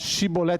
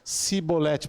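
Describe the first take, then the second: First: The word begins with a sh sound. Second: The word begins with an s sound. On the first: The speaker belongs to the group. The speaker calls it right. "Você só vai para lá se você falar Shibolete" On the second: The speaker is from the enemy group. The speaker calls it wrong. "Sem conseguir pronunciar corretamente a palavra"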